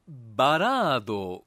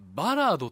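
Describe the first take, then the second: First: The high pitch falls on the middle syllable. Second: The high pitch falls on the first syllable. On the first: This is the usual modern accent. "中田かね、中田かのアクセントがまあ最近では一般的" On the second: This is a deliberately defiant, less common accent. "頭高選んできましたね。"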